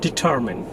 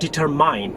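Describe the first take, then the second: First: "determine" as di-TER-mun; correct pronunciation. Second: "determine" as deter-MINE; mispronunciation. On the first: Teacher introducing the next word, correct pronunciation. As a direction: give "determine" a weak "mun" ending. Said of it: "The next word is determine". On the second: Teacher showing what it is not, mispronounced. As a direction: end "determine" with a full "mine". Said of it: "this is not determine". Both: Shown as a demonstration.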